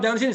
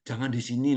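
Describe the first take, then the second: First: It is said loudly and harshly. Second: It is said softly and gently. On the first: It sounds rude and lacks manners. The speaker calls it wrong. "Kenceng, kasar gitu" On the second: It shows politeness and respect. The speaker calls it right. "Kalau Jawa kan ... Kan ngomongnya begitu"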